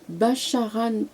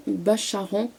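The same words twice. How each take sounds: First: "Bacharan" ending in a sounded N, like "-anne"; final N sounded. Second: "Bacharan" ending in a French nasal vowel, silent N. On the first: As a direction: say "Bacharan" with the last N fully pronounced. (« Bacharan » avec le N final prononcé, comme « -anne ») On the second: (« Bacharan » avec « an » nasal final, N muet) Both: Real, not acted. Tries surname two ways.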